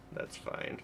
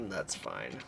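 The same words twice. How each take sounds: First: That's fine. whispered with no voice. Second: Said in the usual way. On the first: Real, not acted. Streamer reassuring chat in a whisper.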